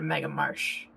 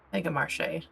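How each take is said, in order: First: The last word sounds like English marsh. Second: The last word has a French-style pronunciation. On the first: The speaker calls it wrong. "I've been saying that wrong" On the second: The speaker calls it right. "I didn't even notice the accent"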